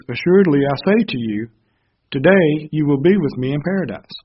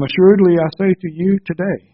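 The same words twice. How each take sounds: First: "Assuredly I say to you," then a pause, then "today you will be with me"; comma before today. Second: "Assuredly I say to you today" run together as one phrase; no pause before today. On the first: Preacher corrects his reading, pausing before "today". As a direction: break after "to you" and start fresh on "today". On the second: Preacher misreads the verse, running "to you today" together. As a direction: read "to you today" straight through with no break. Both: Shown as a demonstration. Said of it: "there's a comma before today".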